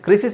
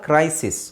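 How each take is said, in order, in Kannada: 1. ಮೊದಲ ಸ್ವರ ಸಣ್ಣ 'i' ಧ್ವನಿ. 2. ಮೊದಲ ಸ್ವರ ದೀರ್ಘ 'ಐ' ಧ್ವನಿ. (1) "ಕ್ರಿಸಿಸ್ ಅಲ್ಲ"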